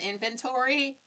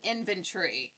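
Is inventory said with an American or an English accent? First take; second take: American; English. First: It is said in an American accent. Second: It is said in an English accent. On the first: "it's not an inventory" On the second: "they're both English, so ... it's an inventory"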